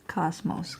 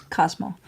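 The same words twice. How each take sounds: First: Cosmos said with a final S sound, softer; wrong name. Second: Cosmo said ending on the O, no S; right name. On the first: Correcting a viewer who misspelt the cat's name, Cosmos with the S. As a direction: say Cosmos ending in an S. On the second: Correcting a viewer on the cat's name, Cosmo without the S. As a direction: say Cosmo with no final S. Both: Shown as a demonstration. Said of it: "without the S at the end".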